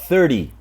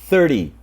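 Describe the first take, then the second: The two takes are said the same way.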